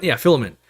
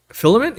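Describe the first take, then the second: First: "filament" settled with a falling tune; "Yeah, filament" said flatly, falling at the end; falling confirmation. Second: "Filament?" asked with an unsure rising tune; "Filament?" said higher, rising at the end; rising question. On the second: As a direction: try out the word "Filament?" as a question, pitch going up. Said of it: "what do they call that?". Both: Real, not acted.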